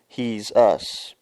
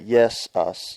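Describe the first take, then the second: First: The word begins with an H sound. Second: The word begins with a Y sound. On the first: "Pronounce it with an H" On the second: "Pronounce it with a Y"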